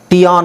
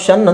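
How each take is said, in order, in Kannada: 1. ಇದನ್ನು ಎರಡು ಉಚ್ಚಾರಾಂಶ, tee-on ಅಂತ ಓದ್ತಾರೆ. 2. ಇದನ್ನು ಒಂದೇ ಉಚ್ಚಾರಾಂಶ, shun ಅಂತ ಓದ್ತಾರೆ. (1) "ಟಿ ಆನ್ ಅಂತ ಓದಬಾರ್ದು" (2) "ನಾವು ಶನ್ ಅಂತ ಓದಬೇಕು"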